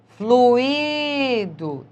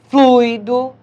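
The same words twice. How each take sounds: First: The u and i fall in separate syllables. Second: The u and i form one syllable. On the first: It is the verb form. "existe o hiato" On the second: It is the noun or adjective. "existe o ditongo"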